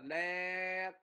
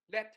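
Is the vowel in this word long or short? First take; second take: long; short. First: The vowel is drawn out long. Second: The vowel is short and clipped off crisply. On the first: The speaker calls it wrong. "Chứ đừng có đọc là Let nha" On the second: The speaker calls it right. "Đọc lẹ, dứt khoát"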